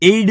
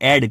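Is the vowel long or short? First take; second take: long; short. First: The vowel is a long gliding sound. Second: The vowel is a short clipped sound. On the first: The speaker calls it wrong. "આને એડ નહીં કહીએ" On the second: The speaker calls it right. "ટૂંકો અવાજ છે એડ"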